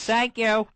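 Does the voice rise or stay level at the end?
level. The pitch does not rise at the end. The speaker calls it wrong. "for the tone of thank you"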